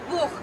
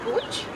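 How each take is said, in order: First: The final sound is a throaty rasping hiss. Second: The final sound is a ch as in chair. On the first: The speaker calls it right. "like a little tiger" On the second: The speaker calls it wrong. "the same in English because, well, it's chair"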